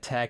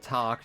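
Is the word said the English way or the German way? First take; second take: English; German. First: It is said like the English word tag. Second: It is said like the German word Tag.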